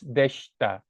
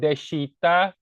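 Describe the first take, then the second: First: The i vowel after sh nearly disappears. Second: The i vowel after sh is fully pronounced. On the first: The speaker calls it right. "the I here gets kind of like kind of goes away" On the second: The speaker calls it wrong. "not deshita"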